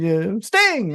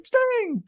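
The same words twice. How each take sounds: First: Said in the usual way. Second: "Sting" called out much higher, stretched like an announcer; Schiavone's Sting call. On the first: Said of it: "gonna be Sting 'cause all of a sudden Tony Schiavone takes the lead". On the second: Retold or imitated. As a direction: imitate the announcer calling "Sting". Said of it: "Tony Schiavone takes the lead on commentary".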